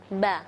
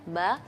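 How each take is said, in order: First: It is said with a thin Arabic sound. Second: The same.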